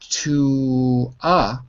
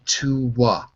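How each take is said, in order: First: The two vowels meet with no W sound between. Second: A W sound links the two vowels together. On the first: "instead of saying to a" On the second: "There is a magic W between the to and the article a"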